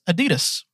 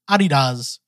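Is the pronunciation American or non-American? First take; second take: American; non-American. First: It is said the American way. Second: It is said the way used outside America.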